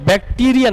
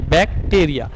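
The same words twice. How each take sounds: First: "बैक्टीरिया" with a long ee in the middle, "bak-TEE-ria"; long-ee pronunciation. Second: "बैक्टीरिया" with an ay vowel in the middle, "bak-TAY-ria"; Greek-word pronunciation. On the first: Teacher showing students which form is not the Greek one, "बैक्टीरिया" said with "tee". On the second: Teacher giving students the Greek dictionary word, "बैक्टीरिया" said with "tay". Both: Shown as a demonstration. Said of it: "बैक्टीरिया नहीं".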